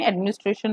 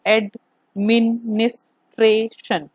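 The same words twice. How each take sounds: First: Said in the usual way. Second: एडमिनिस्ट्रेशन slowly split into five separate syllables, a gap after each; broken into syllables. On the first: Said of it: "इस एक word में". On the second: Shown as a demonstration. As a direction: say एडमिनिस्ट्रेशन syllable by syllable, slowly, as ad-mi-nis-tra-tion. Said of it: "you need to break the words". (एडमिनिस्ट्रेशन को धीरे-धीरे, हर अक्षर तोड़कर बोलें)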